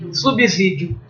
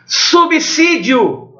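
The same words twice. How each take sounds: First: The s after sub is a buzzing z sound. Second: The s after sub is a hissing s sound. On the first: The speaker calls it wrong. "Não fale isso não" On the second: The speaker calls it right. "A letra S, depois de consoante, tem som de C"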